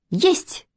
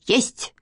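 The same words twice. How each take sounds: First: Short, high-pitched "yes sir"; child calling out. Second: Mock bark. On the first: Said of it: "крикнула Катя". (короткий высокий детский выкрик) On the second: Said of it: "гаркнула Манечка". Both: A narrator's reading.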